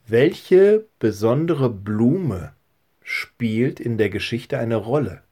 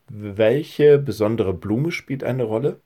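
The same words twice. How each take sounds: First: Slow question. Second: Said in the usual way. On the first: Shown as a demonstration. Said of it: "Und die dritte Frage ist". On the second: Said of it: "Kannst du dir das merken?".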